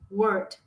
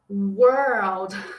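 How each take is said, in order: First: The L sound before the final D is missing. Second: The tongue curls into an L before the D. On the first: The speaker calls it wrong. "pode ser que de início você pronuncie essa palavra assim" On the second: The speaker calls it right. "eu tenho que dar essa enrolada na língua"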